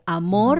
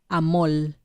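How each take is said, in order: First: The word ends with an R sound. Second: The word ends with an L sound. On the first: "O amor" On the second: "las R's las cambian por L"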